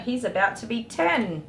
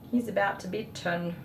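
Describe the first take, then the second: First: Said in the usual way. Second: Softer, welling up with emotion; real emotion breaking through, softer; choked up. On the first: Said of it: "I do get so emotional". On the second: Real, not acted. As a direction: let the pride catch in your throat. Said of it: "Sorry, I do get so emotional".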